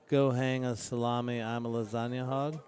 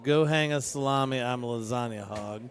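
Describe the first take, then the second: First: It is said in a low, sultry voice. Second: It is said in a plain, ordinary voice.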